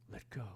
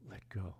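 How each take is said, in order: Both takes have the same delivery.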